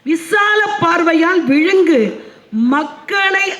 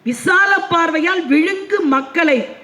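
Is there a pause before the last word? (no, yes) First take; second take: yes; no. First: A pause comes before the last word. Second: The last word runs on without a pause. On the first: The last word begins a new phrase. The speaker calls it right. "அதோட நிறுத்திக்கணும்" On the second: The last word is read as the object of the phrase before it. The speaker calls it wrong. "தவறான ஒரு உச்சரிப்பு"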